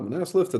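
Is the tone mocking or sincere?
sincere. It is said in a sincere, reassuring tone. Permission is truly given.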